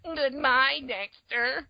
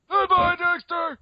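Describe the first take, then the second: First: Very high put-on cartoon voice; another cartoon Dexter. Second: Very high, loud, slow cartoon farewell; piercing cartoon Dexter. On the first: Host doing Dexters' goodbyes, high cartoon voice. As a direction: squeak out a goodbye as a cartoon clone. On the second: Host answering as next Dexter, piercing loud cartoon voice. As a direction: push the cartoon goodbye up to a loud squeal. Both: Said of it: "all the Dexters saying goodbye to each other".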